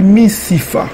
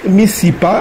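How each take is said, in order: First: The consonant before the last vowel is f. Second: The consonant before the last vowel is p. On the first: "on dit misifa" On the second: "au lieu de dire mis, misipa"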